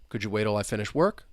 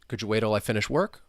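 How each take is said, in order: First: The words run together in connected speech. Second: The words run together in connected speech.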